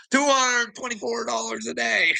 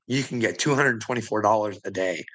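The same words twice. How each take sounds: First: High, disbelieving repeat of the sum; incredulous. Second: Said in the usual way. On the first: Real, not acted. Repeating the daily payout to viewers in higher disbelief. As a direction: say it like you can't believe it.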